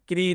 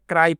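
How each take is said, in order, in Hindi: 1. स्वर 'ee' जैसा है। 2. स्वर 'eye' जैसा है। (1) "क्री नहीं दोस्तों" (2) "इससे क्राई पढ़ना है"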